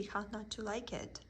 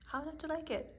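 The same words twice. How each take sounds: First: Said in the usual way. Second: Much higher pitch. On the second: Acted. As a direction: repeat it pitched well up, a delighted rhetorical question. Repeats question, second time higher.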